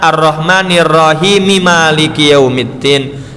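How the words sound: Rahim joins Maliki through a linking vowel. The reader continues into the next verse. "Nek wasol harusnya dibacanya"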